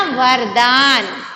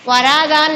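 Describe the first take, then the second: First: वरदान with silent vowel after र; वरदान, long दान after closed वर; correct pronunciation. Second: वरादान with a long aa after र; वरादान with an extra middle vowel; wrong pronunciation. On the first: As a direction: slowly say वरदान as var-daan. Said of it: "वरादान नहीं है ना". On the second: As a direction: misread वरादान, holding रा. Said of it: "नहीं है ना". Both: Shown as a demonstration.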